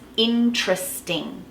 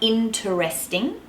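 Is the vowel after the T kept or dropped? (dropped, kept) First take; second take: dropped; kept. First: The vowel between T and R is dropped. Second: The vowel between T and R is kept. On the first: The speaker calls it right. "you just drop that vowel in between the T and the R" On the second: The speaker calls it wrong. "It's not interesting"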